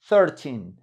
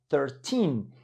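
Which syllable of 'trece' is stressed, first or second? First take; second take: first; second. First: The stress is on the first syllable. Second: The stress is on the second syllable. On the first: "Una es poner el acento en la primera" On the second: "Otra es ponerlo en la segunda"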